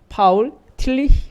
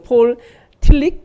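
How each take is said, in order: First: The name is said with German pronunciation. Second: The name is said with English pronunciation. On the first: "독일 쪽에서는" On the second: "미국으로는"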